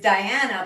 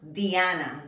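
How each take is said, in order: First: The first vowel sounds like 'eye'. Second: The first vowel sounds like 'ee'. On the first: "This is Diana" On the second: "but in Spanish, it's pronounced Diana. The I in Spanish sounds like a long E"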